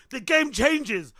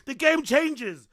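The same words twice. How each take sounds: The two takes are said the same way.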